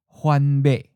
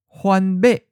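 First: The last syllable is mid pitch and cut short. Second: The last syllable is high and cut short.

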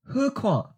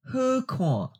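First: The phrase is said at normal conversational speed. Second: The phrase is said slowly and deliberately. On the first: "First natural speed" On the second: "and then slowly"

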